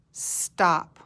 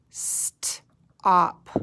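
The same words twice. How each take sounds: First: Said in the usual way. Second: "St-op" split into onset and rhyme; sounded out. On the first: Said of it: "Find the word stop". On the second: Shown as a demonstration. Teacher guiding fingers under the word, sounded out. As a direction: hold the st, pause, then op in "St-op". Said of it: "run your finger under the word".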